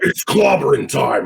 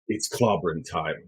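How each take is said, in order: First: It is said in an intense, over-the-top way. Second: It is said in a calm, understated way.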